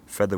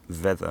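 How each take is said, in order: First: The word begins with a voiceless f sound. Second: The word begins with a voiced v sound. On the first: "Feather would become veather" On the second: "would become veather"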